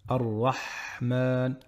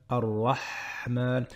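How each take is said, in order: No difference in how they are said.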